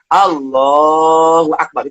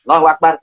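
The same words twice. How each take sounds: First: It is said calmly and unhurriedly. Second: It is said hurriedly, without calm.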